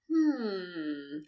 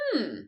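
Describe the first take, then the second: First: The hmm is long and drawn out. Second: The hmm is short and high-pitched. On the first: The listener is thinking about what was said. "with a lot of M's" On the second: Maybe that is a good idea. "It can be high-pitched"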